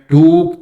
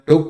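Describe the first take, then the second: First: The vowel is long and pushed. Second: The vowel is short and light. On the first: The speaker calls it wrong. "टुक में टूक तो नहीं बोलते" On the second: The speaker calls it right. "हम टुक बोलते हैं ना, तो लाइट"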